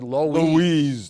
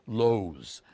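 First: The name is said in a Brooklyn pronunciation. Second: The name is said in a Midwest pronunciation. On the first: "But we said Loew's Kings" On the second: "the right way of pronouncing it, the Midwest, they would pronounce it Loew's"

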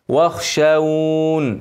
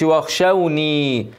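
First: The word ends on a bare n sound. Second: The word ends with an added ee vowel. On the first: The speaker calls it right. "لو وقفت عليها سكنها" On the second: The speaker calls it wrong. "ما اقولش واخشوني"

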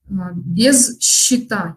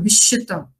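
First: Each consonant is pronounced clearly and separately. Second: The consonants merge into one assimilated sound. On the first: "Я сейчас специально говорю четко" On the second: "когда я не стала делать особого акцента"

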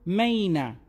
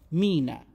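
First: The first vowel sounds like 'my'. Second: The first vowel sounds like 'mee'. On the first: The speaker calls it wrong. "إذا كتبنا واي راح تكون فونولوجيا ماي" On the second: The speaker calls it right. "هذا الرمز راح ينطق مينا"

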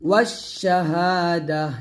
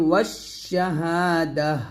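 First: The word ends with a soft 'h' sound. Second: The word ends with a soft 'h' sound.

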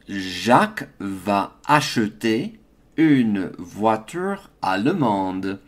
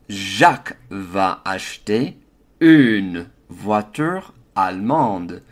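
First: The E vowels in acheter and allemande are pronounced. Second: The E vowels in acheter and allemande are dropped.

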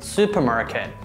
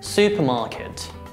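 First: It is said with American pronunciation. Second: It is said with British pronunciation. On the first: "American pronunciation" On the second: "British pronunciation"

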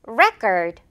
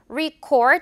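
First: The first vowel sounds like 'eh'. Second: The first vowel sounds like 'ee'. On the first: The speaker calls it right. "지금은 다시 한번 record" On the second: The speaker calls it wrong. "record 아니고"

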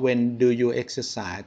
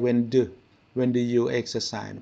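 First: The word 'do' is said fully and clearly. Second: The word 'do' is said light and reduced. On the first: The speaker calls it wrong. "ไม่ได้ออกเสียงว่า" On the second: The speaker calls it right. "แต่ออกแค่ ... เบาลงนะครับตรงดูนี่เบานะ"

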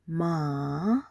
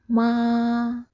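First: The pitch rises from middle to high. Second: The pitch stays high and level. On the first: It means horse. "Now we are going for the second tone" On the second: It means mother. "For the first tone"

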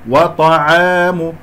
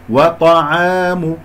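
No difference in how they are said.

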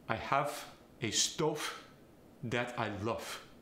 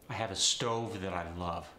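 First: It is said in a Farsi accent. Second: It is said in an American accent.

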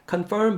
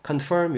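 First: The f sound is weak or missing. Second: The f sound is clearly pronounced. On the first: The speaker calls it wrong. "confirm보다는" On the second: The speaker calls it right. "F 사운드 신경 쓰시고 ... confirm 이렇게 발음해 주시고"

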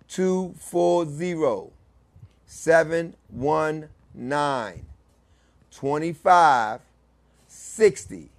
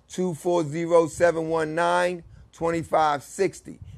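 First: The number is said slowly. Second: The number is said at a normal pace.

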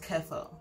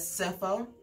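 First: The prefix begins with a K sound. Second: The prefix begins with an S sound. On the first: This is the British pronunciation. "in the UK, they pronounce the same prefix as kepho" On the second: This is the American pronunciation. "in the US, they pronounce this prefix as cepho"

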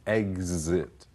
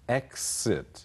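First: The x is sounded with a z sound. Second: The x is sounded with an s sound. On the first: "z 的音"

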